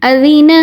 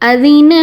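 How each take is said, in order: No difference in how they are said.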